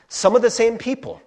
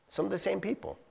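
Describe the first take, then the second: First: Said in the usual way. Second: Some of the same people repeated much softer. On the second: Shown as a demonstration. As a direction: let it sink in quietly.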